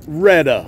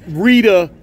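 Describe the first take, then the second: First: The first vowel sounds like 'eh'. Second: The first vowel sounds like 'ee'. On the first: The speaker calls it wrong. "not Retta" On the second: The speaker calls it right. "it's Rita"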